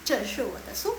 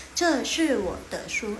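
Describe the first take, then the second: First: Said in the usual way. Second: "Ce shi wo de shu" drawn out slowly, each tone clear; slow model reading. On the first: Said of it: "ini adalah buku saya". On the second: Shown as a demonstration. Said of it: "Ya, ya, ya, 对了". ("Ce shi wo de shu" dibaca pelan dan jelas)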